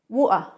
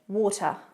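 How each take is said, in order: First: The middle T is a glottal stop. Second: The middle T is a clearly pronounced T. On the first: "a bit of a London accent, you might hear the glottal stop" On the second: "But in British English"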